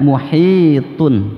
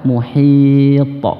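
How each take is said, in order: First: It ends with the full -un ending. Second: It stops on t with a strong bounce.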